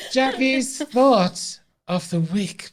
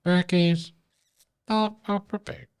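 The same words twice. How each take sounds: First: Announcer voice. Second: Words pushed out on a burp. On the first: Announcing the weekly segment. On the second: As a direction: burp through the segment title. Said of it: "Burp from Berkey". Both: Acted.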